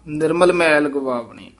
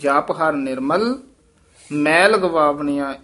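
First: Nirmal runs straight into ਮੈਲ without pause. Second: There is a pause after Nirmal. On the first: Nirmal seems to describe the dirt. The speaker calls it wrong. "ਇਉਂ ਨਹੀਂ ਕਹਿਣਾ" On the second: Nirmal belongs with the preceding words. The speaker calls it right. "ਜਪ ਹਰ ਨਿਰਮਲ, ਇੱਥੇ ਠਮਕ ਲੱਗੇਗੀ"

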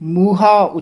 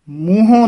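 First: The word ends in a plain, unnasalized 'a'. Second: The word ends in a nasalized 'o'. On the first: The speaker calls it right. "ਮੂਹਾ ਉਚਾਰਨ ਕਰਨਾ" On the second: The speaker calls it wrong. "ਮੂੰਹੋਂ ਨਹੀਂ ਬੋਲਣਾ"

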